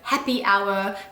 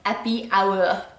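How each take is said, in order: First: The h sound at the start is pronounced. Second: The h sound at the start is dropped.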